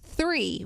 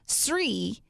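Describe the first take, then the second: First: The word begins with a 'th' sound. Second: The word begins with an 's' sound. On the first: The speaker calls it right. "it's three with the T H" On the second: The speaker calls it wrong. "you always say Sri"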